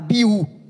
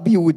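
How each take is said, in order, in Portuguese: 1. O nome termina em vogal. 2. O nome termina com som de d. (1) "mas está Abiú" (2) "A minha avó fala Abiúd"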